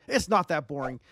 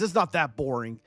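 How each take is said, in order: First: Said in the usual way. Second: "not" pushed, falling off; stress on not. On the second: Shown as a demonstration. Streamer pleading with bored chat, stressing not. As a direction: lean on "not" in "It's not that boring". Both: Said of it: "Come on, guys".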